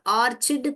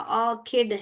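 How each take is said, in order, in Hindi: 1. बीच का व्यंजन ch वाली आवाज़ है। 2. बीच का व्यंजन k वाली आवाज़ है। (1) "ऑर्चिड कोई भी नहीं मेरा बच्चा बोलेगा" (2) "ऑर्किड है"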